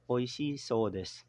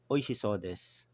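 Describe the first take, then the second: First: The vowel before 'sou' is drawn out. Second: The vowel before 'sou' is short. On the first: People say the food is delicious. "may pakaimportante pa rin nung prolong doon" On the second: The food looks delicious. "'Pag looks like"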